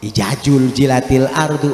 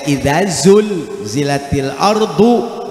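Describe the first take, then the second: First: The words use j sounds throughout. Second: The words use dz and z sounds. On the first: The speaker calls it wrong. "dibaca jim semua" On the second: The speaker calls it right. "Bener tuh"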